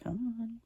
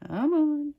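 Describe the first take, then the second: First: Said in the usual way. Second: Exasperated. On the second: Real, not acted. Frustrated at crooked paper.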